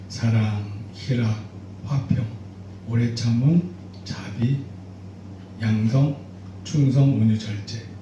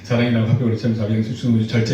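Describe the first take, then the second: First: The list is recited slowly. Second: The list is recited fast.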